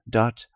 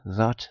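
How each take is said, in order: First: The word begins with a d sound. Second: The word begins with a th sound. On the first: The speaker is from Shetland. "if you're for ken Shetland" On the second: The speaker is from the south. "If you're for uh, south"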